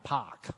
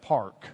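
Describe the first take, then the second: First: The word is said without an r sound. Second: The word is said with an r sound. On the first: "in Boston where they don't use an R" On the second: "instead of the park"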